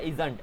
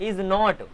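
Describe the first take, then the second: First: It is said as one shortened contracted word. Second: It is said as two separate full words.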